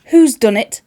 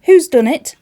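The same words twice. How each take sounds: First: Loud demanding cry, stress on Who's; demanding fairy mother. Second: Louder and higher, stress on Who's; angrier repeat. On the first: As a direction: call out who did it, accusing. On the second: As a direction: shout it again, more insistent. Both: Acted.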